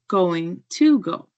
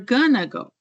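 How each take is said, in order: First: Going to is said in full. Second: Going to is reduced to gonna. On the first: "instead of" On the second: "Sometimes we say"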